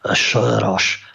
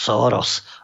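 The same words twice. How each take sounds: First: The name is said with a Hungarian pronunciation. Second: The name is said with an American pronunciation. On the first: "Maďara" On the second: "podľa toho, že či to hovorí Američan"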